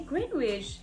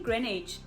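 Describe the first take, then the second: First: It is said with a South African pronunciation. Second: It is said with the local pronunciation. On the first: This is how the visitors said it. The speaker calls it wrong. "We say Greenwich" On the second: This is how the locals say it. The speaker calls it right. "it's actually Greenwich"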